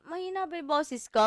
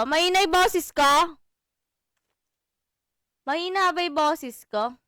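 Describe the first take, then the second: First: Said in the usual way. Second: Boses ko said much louder, checking the mic; louder test of the voice. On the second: Shown as a demonstration. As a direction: push the volume right up on boses. (mas malakas na boses, sinusubok ang mic)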